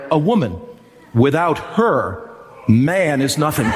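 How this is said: It is said with pauses inside.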